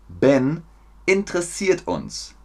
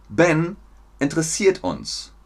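No difference in how they are said.

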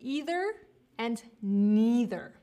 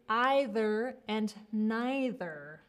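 First: It is said with an American pronunciation. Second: It is said with a British pronunciation. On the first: "most of the time in the US, we say" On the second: "in the UK or other like more British speaking English, you would say"

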